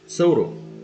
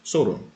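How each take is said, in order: First: The word begins with a th sound. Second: The word begins with an s sound. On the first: "com a língua entre os dentes" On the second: "se pronunciarmos com o som de S"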